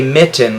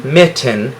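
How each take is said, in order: First: Said in the usual way. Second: "mitten" drawn out slowly, both syllables clear; slow careful mitten. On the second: Shown as a demonstration. Teacher modelling "mitten" slowly for the class. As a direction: stretch "mitten" so the double T shows. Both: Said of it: "because we say mitten".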